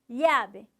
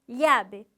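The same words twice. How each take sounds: No difference in how they are said.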